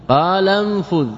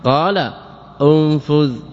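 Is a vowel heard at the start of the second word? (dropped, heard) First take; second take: dropped; heard. First: The second word starts without its opening vowel. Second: The second word starts with an audible 'u' vowel. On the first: "إسقاط همزة الواصل فلا تظهر حركتها" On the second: "بضم الهمزة"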